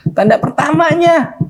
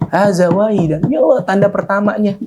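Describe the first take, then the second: First: Much higher and slower, savoring it; soaring, slowed cry of joy; ecstatic repetition. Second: High, eager gasp of joy; joyful exclamation lifted high; overjoyed discovery. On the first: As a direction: stretch the words out in delight. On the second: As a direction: blurt it out thrilled at the sign. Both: Acted. Young man sees first sign.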